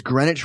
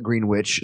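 First: Said in the usual way. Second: Greenwich said GREEN-witch; Kansas pronunciation. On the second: Shown as a demonstration. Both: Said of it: "We call it Greenwich".

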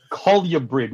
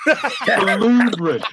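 First: Colubrid said as COL-yuh-brid; mock mispronunciation. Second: COLUBRID as kuh-LOO-brid, drawn out slowly; correct colubrid pronunciation. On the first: Guest mimicking the hosts' error, mock mispronunciation. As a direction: put a "yuh" in the middle of Colubrid. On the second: Guest correcting podcast hosts on a snake term, exaggerated correct pronunciation. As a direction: stretch the LOO in Colubrid, pitched high. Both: Shown as a demonstration. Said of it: "learn how to fucking pronounce it".

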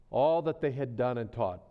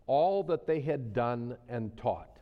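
First: Said in the usual way. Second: Slow, weighing each word; slow deliberate reading. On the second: Real, not acted. Preacher reading scripture to his flock, slow and deliberate. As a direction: let each word sink in. Preacher reads the verse slowly.

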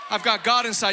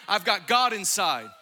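First: Louder, ringing proclamation; shouted declaration. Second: Said in the usual way. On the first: Acted. Preacher repeating the line to crowd, louder shout. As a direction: shout it to the room. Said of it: "repeated louder". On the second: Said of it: "repeated as shout".

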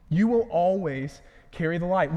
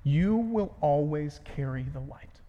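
First: The promise declared with conviction; firm restatement. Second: Slow. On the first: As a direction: drive "will" home as a firm promise. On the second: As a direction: let the promise sink in slowly. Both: Shown as a demonstration. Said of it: "Here's how we can summarize it".

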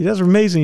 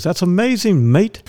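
First: Higher, light imitation of an Irish-Scottish accent. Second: Lightly imitated Irish-Scottish lilt, pitched higher; a waiter's mild Irish-Scottish accent, retold. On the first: Retelling the waiter's reply in a hint of Irish-Scottish accent. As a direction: echo the waiter with a touch of Irish-Scottish brogue. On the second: Waiter answers his guessing with a hint of Irish-Scottish accent. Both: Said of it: "he's got this accent".

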